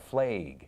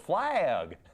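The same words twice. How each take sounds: First: The vowel sounds like the one in 'Haig'. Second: The vowel sounds like the one in 'bag'. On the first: This is how the northern cousins said it. The speaker calls it wrong. "they pronounced the word F L A G as though it rhymed with, you know, Alexander Haig. It sounded like flag" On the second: This is how the southern speaker says it. The speaker calls it right. "no, it's flag"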